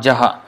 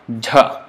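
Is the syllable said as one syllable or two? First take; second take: two; one. First: A vowel separates the j and the h. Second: The j is released with one breath puff. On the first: The speaker calls it wrong. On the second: The speaker calls it right.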